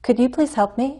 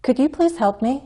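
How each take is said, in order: The two takes are said the same way.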